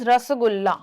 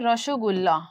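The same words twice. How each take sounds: First: It is said with a plain standard pronunciation. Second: It is said with a Bengali-style pronunciation.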